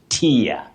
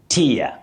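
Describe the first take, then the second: First: The word rhymes with fear. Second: The word rhymes with fear.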